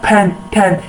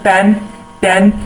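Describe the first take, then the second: First: The first consonants have a strong puff of air. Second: The first consonants have no puff of air. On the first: This is how native speakers say it. "लेकिन वो बोलते हैं फैन ठैन यानी कि P के साथ H के sound" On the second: This is how Indian speakers say it. "जिस तरह हम uh, बोलते हैं"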